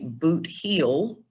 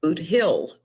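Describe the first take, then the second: First: The second word has a long ee vowel. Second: The second word has a short i vowel. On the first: This is how outsiders say it. The speaker calls it wrong. "people don't say boot heel" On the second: This is how locals say it. The speaker calls it right. "they say boot hill"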